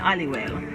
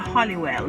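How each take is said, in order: First: The name is said quickly and clipped short. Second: The name is said in full, carefully. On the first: This is how locals actually say it. "They're saying Hollywell" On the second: This is the careful form locals skip. "Jamaicans don't have time to say Hollywell"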